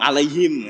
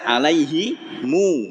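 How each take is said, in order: First: The word ends on a closed m sound. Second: The word ends with an added u vowel. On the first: The speaker calls it wrong. "ada yang masih tetap ngotong alaihim" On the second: The speaker calls it right. "Padahal udah jelas alaihimu"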